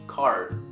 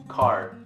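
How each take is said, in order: First: The word ends with an R-like sound. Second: The same.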